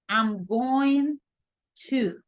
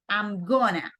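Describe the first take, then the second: First: Each word of 'going to' is said in full. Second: 'Going to' is squeezed into one reduced word. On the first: This is the form to write. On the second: This is how it is said in speech.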